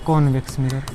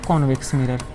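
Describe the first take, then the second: No difference in how they are said.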